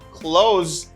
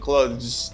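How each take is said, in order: First: The th sound is left out. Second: The voiced th sound is pronounced. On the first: "Some people prefer to say clothes" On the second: "instead of saying clothes because here this th sound is difficult to say"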